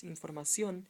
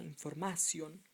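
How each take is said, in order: First: "información" said in-for-ma-SION; stress on last syllable. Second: "información" said in-for-MA-sion; wrong second-last stress. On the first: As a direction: hit the ending of "información". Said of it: "lets you know that it's información". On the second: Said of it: "not información". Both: Shown as a demonstration.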